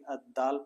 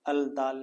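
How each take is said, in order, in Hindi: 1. "ल" की आवाज़ दोहरे "द" में मिल जाती है। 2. दाल से पहले "ल" की आवाज़ नहीं बोली जाती। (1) "बल्कि अद दाल पढ़ते हैं" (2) "अल दाल नहीं पढ़ते"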